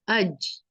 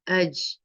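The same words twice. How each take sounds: First: The j sound is soft with air in it. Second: The j sound is soft with air in it.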